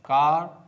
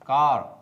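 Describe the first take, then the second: First: The final r sound is left silent. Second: The final r sound is clearly pronounced. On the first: "पहला है British English" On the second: "दूसरा है American English"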